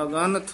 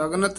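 First: ਅਗਨਤ with a slight break, a-ganat; ਅਗਨਤ split after the first a; dash-separated reading. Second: ਅਗਨਤ rattled off quickly, middle vowel squashed to agnat; wrong run-together reading. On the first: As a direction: give the ga in ਅਗਨਤ its full vowel. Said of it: "dash ਦੇ ਕੇ ਉਚਾਰਨ ਕਰਨਾ ਹੈ". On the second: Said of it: "ਇਹ ਅਗਨਤ ਨਹੀਂ ਕਹਿਣਾ". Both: Shown as a demonstration.

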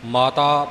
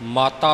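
First: ਮਾਤਾ with a light single t; ਮਾਤਾ without pressing the t; soft ਮਾਤਾ. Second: ਮਾਤਾ with a pressed double t; weighted t in ਮਾਤਾ; firm ਮਾਤਾ. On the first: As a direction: say ਮਾਤਾ loosely, like "maataa". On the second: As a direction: say ਮਾਤਾ hard, like "mattaa". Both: Shown as a demonstration. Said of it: "ਮਾਤਾ ਪੋਲਾ ਨਹੀਂ ਬੋਲਣਾ".

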